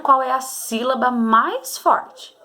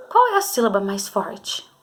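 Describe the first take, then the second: First: Slowed, each syllable laid out; slow, calm saying. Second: Said in the usual way. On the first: Shown as a demonstration. Teacher modelling how pupils should say it, slowly. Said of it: "falar com calma pra você descobrir". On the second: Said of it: "Vamos começar pela palavrinha boneca".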